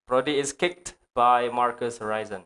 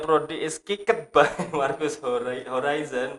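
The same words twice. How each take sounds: First: Kicked is said as one syllable ending in t. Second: Kicked is said with an extra 'ed' syllable. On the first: The speaker calls it right. "Yang benar?" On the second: The speaker calls it wrong. "berarti amatir"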